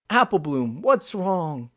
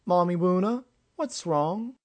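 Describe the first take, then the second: First: Put-on high, loud child's voice, falling ending; pitched-up kid, urgent question; concerned young friend. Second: Put-on very high, small child's questioning voice; worried tot asking mother, rising at the end; lisping little child, pitched way up; little foal. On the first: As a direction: call to a friend in worried alarm. Young friend asks Applebloom. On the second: Small foal asks adoptive mother. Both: A narrator's reading.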